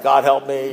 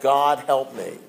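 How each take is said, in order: First: It is said casually, without real feeling. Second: It is said sincerely, with deep feeling.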